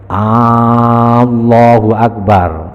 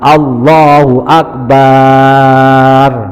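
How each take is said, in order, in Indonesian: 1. Huruf 'A' di awal Allah dipanjangkan. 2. Suku kata 'bar' terakhir pada Akbar dipanjangkan. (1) "Artinya apa? Apakah Allah Maha Besar? No, berarti sanksi" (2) "barnya dipanjangin, nggak boleh"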